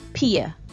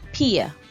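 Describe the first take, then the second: First: It sounds like the English word 'pay'. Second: The same.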